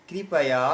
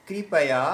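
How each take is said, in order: The two takes are said the same way.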